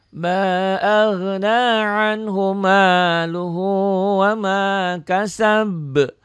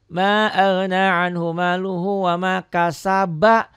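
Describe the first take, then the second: First: The last word stops on a consonant, cut off. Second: The last word ends in a linking vowel 'ba'. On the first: The verse is read on its own, as written. "Itu yang normal" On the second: The verse is joined to the next one. "kalau diwasol"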